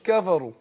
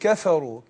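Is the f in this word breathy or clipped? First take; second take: clipped; breathy. First: The f sound is clipped without audible breath. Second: The f sound carries an audible breathy release. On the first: The speaker calls it wrong. "ما اقولش كفروا" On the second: The speaker calls it right. "اقول كفروا. كفا الفاء ويعني ايه حرف حرف مهموس"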